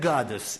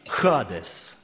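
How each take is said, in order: First: The word begins with a hard g sound. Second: The word begins with a breathy h sound. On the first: This is how the Russian version renders the word. The speaker calls it wrong. "Русская версия говорит «гадес». Не согласен с ней" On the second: This is how the original Greek word sounds. The speaker calls it right. "оно звучит как «хадес»"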